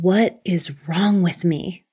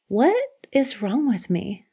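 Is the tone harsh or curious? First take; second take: harsh; curious. First: It is said in a harsh, tense, self-critical tone. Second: It is said in an open, curious, wondering tone.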